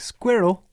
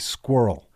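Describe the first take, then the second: First: The first vowel sounds like 'er' in 'stir'. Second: The first vowel sounds like 'oo' in 'pool'. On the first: The speaker calls it right. "instead of it being squirrel" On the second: The speaker calls it wrong. "I say squirrel with two O's instead of an I and an E"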